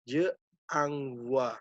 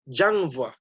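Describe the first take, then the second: First: The vowel of je is fully pronounced. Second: The vowel of je is dropped entirely. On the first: "Ini kan mestinya kan je" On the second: "ini hilang"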